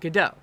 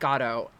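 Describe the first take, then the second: First: The name is said the American way. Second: The name is said the European way. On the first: This is how it is said in America. "in America, we silly Americans pronounce it Godot" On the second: This is how it is said in Europe, as the author intended. "in Europe they pronounce it Godot"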